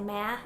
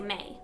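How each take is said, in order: First: The vowel sounds like the one in man. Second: The vowel sounds like the one in may. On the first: "as in masculine or man" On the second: "others even say may"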